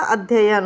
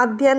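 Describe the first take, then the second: First: अध्ययन in three syllables: adh-ya-yan; correct pronunciation. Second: अध्ययन squashed to two syllables: adh-yan; wrong pronunciation. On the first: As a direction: sound both ya syllables in अध्ययन. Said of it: "अध्ययन होता है". (अध्ययन में "य-यन" पूरा बोलें) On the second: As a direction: drop the middle "ya" of अध्ययन. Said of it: "अध्ययन नहीं होता". (अध्ययन को "अध्यन" जैसा बोलें) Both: Shown as a demonstration.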